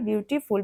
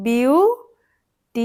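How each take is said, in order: First: Said in the usual way. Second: বিউটিফুল hugely stretched, বিউ rising; very slow three-part বিউটিফুল; split into syllables. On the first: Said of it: "বিউটিফুল শব্দটা ভাঙো". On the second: Shown as a demonstration. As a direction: say বিউ, টি, ফুল with long pauses between. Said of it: "তাহলে তিনটে".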